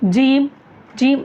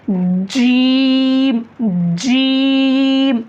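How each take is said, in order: First: The vowel is cut short, not fully stretched. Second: The vowel is stretched long and said loudly. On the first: The speaker calls it wrong. "उसमें कंजूसी ना करें, जीम जीम ऐसा नहीं" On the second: The speaker calls it right. "अच्छे से खींचना, जोर से बोलना"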